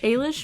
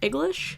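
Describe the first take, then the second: First: The g is silent in the middle. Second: The g is sounded in the middle. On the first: "maybe. I apologize if I'm destroying the pronunciation" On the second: "A G L I S H"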